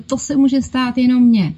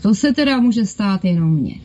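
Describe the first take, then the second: First: It is said in a pleased, delighted tone. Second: It is said in an annoyed, exasperated tone. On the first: Something nice happened to the speaker. "když se vám přihodilo něco pěkného, příjemného, co vás potěšilo" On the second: Something bad happened to the speaker. "kdy se vám rozsypala mouka, rozbil talíř"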